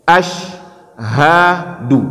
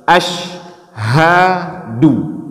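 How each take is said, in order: The two takes are said the same way.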